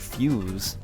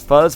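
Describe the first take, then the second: First: The name is said with a long 'yoo' vowel. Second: The name is said with a short 'uh' vowel. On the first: The speaker calls it right. "but it's actually Fuse" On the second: The speaker calls it wrong. "I thought it was pronounced as Fuzz"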